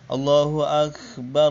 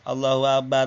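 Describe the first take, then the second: First: The consonants and doubled letters are pronounced clearly. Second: The consonants are pronounced loosely and slurred. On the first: The speaker calls it right. "harus jelas mak huruf yang dimatikan, huruf tanwinnya, taswidnya" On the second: The speaker calls it wrong. "itu salah fatal"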